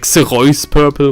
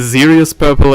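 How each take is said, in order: First: The name is pronounced with German sounds. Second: The name is pronounced with English sounds. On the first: "when I say German, when I speak German" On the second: "in the uh, English, you know, when talking English"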